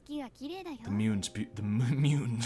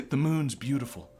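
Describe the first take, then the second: First: Mock anime girl voice. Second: Said in the usual way. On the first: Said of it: "making fun of their voices". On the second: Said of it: "try and stop myself from making fun".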